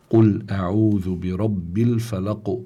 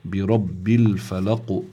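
First: Slow recitation, الفلق ending in a bounced q leaning toward u; recited with qalqala. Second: Slow الفلق ending in an echoing, bounced q; strong qalqala. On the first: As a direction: recite slowly, letting the q of الفلق echo. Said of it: "القلقلة في القاف هي باتجاه الضم". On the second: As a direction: let the final q of الفلق rebound strongly, leaning toward u. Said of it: "قلقلة كبرى". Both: Shown as a demonstration.

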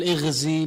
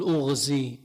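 First: اغزي said "ighzi" with an opening i; اغزي with a front i sound; wrong vowel. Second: أغزي said "ughzi" with an opening u; أغزي with a rounded u sound; correct vowel. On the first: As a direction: start اغزي with a kasra, "ighzi". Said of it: "ما بتقول". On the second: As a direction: start أغزي with a damma, "ughzi". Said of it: "بتقول". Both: Shown as a demonstration.

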